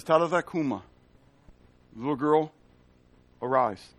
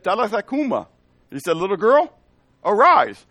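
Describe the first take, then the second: First: Gentle command. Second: Put-on "Talitha cuma" pitched higher, "Little girl, arise" louder and higher; incredulous retelling. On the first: Retold or imitated. Jesus raises the girl. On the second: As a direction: echo it back loudly, half in disbelief. Townspeople retell Jesus's words.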